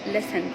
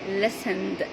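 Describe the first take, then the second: First: The word ends in a different sound. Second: The word ends in a d sound. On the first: The speaker calls it wrong. "not listened" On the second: The speaker calls it right. "the ed here will be pronounced as da"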